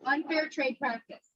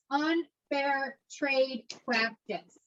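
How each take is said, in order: First: Said in the usual way. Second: Slow, spaced-out UNFAIR TRADE PRACTICE, softly; slow dictation. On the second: Shown as a demonstration. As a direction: draw out each word of "Unfair trade practice" for note-takers. Teacher dictates a key term.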